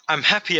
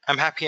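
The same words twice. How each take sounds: First: It is said with real, enthusiastic feeling. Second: It is said flatly, without feeling.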